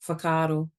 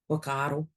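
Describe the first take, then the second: First: The h sound at the start is pronounced. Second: The h sound at the start is dropped. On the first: It follows the speaker's own dialect. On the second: It follows the Taranaki or Whanganui dialect.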